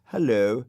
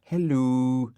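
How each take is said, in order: First: A bright, polite little hello; polite greeting with a lift. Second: Higher, grumpy dog's hello; put-on dog voice greeting; Dougal's voice. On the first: Acted. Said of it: "very politely". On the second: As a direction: answer as the fussy dog.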